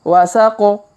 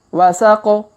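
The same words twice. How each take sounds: The two takes are said the same way.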